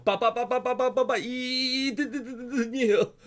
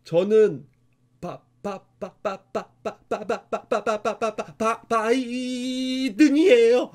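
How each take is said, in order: First: 바- repeated in short bursts, then a very slow 이든이에요; stuttered 바-, 바-; stutter as written in the book. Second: Stuttering, stretching out the last word; an imitated stammer on 바-, 바-; imitating a child's stutter. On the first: Retold or imitated. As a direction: read the stammer aloud just as the book spells it. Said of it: "정확하게 이렇게 글씨가 써 있어요". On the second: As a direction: repeat the first syllable over and over, then stretch out the name. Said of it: "진짜 이렇게 했었대요".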